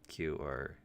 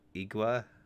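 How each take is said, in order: First: The word is said with a click sound. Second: The word is said with a plain, English-style consonant. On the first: "phonetically, Q or would be closer" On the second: "in English, it could be igua"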